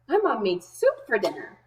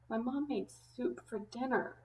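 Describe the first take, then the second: First: The voice sounds happy and cheerful. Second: The voice sounds sad and upset. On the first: The person is pleased about the soup. "The first way I'm going to read it is happy" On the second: The person really doesn't want the soup. "If I was sad about it"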